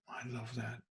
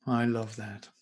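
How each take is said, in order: First: "I love that" repeated much softer, almost under the breath; soft echo. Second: Said in the usual way. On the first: Real, not acted. Pastor, savouring the reading, repeats it softly. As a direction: let the second "I love that" fall to a hush.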